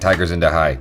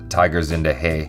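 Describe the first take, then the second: First: The last word rhymes with English 'hi'. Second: The last word does not rhyme with 'hi'. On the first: The speaker calls it wrong. "but I like saying Tiger Zinda Hai. Like, hi" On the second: The speaker calls it right. "It's probably Tiger Zinda Hai"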